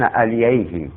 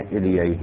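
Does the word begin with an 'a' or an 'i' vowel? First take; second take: a; i. First: The word begins with an 'a' vowel. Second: The word begins with an 'i' vowel. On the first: The speaker calls it right. "ألية بفتح الهمزة" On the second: The speaker calls it wrong. "مو بكسر الهمزة"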